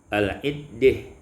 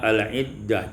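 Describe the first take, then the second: First: The vowel before the final h leans toward e. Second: The vowel before the final h is open a.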